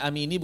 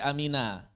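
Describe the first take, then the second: First: The word ends in an i vowel. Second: The word ends in an a vowel. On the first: The speaker calls it wrong. "Bukan amini" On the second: The speaker calls it right. "tapi amina"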